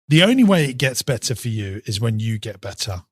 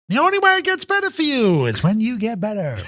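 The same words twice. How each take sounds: First: It is said in the speaker's natural voice. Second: It is said in a put-on impression voice.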